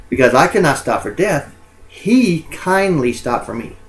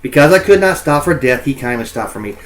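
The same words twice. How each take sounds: First: Slow reread, lingering on he; slowed, with a higher lift on he; slower reread. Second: Reading the lines aloud like verse; a lightly performed poetry reading; poem reading. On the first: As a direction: linger on he, drawing out the line. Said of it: "the concept of death, uh, is given human qualities here". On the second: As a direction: recite the opening of the poem. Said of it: "we look at this first one". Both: Shown as a demonstration.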